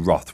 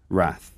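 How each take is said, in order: First: The word is said the British way. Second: The word is said in a non-British way. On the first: The speaker calls it right. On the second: The speaker calls it wrong.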